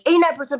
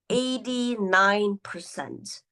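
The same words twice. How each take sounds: First: The words are spoken very quickly. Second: The words are spoken very slowly. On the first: Listeners may miss the important figure. "if you're speaking too fast" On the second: The speaker sounds sleepy, unsure or dull. "this is too slow"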